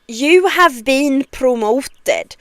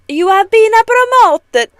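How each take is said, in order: First: It is spoken in a Scandinavian accent. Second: It is spoken in an Italian accent. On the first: "This is a bad Scandinavian accent" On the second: "that's Italian again"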